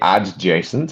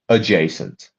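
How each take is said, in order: First: The D sound is pronounced before the J. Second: The D sound is silent before the J. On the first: The speaker calls it wrong. "Don't say adjacent because we don't pronounce the D there" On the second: The speaker calls it right. "We say adjacent"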